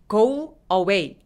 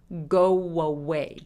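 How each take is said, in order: First: The two words are said separately. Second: The words are linked with a w sound. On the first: The speaker calls it wrong. "go away 아니고" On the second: The speaker calls it right. "중간에 W가 하나 더 있는 것처럼"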